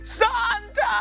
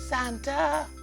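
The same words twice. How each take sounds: First: It is said loudly. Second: It is said softly.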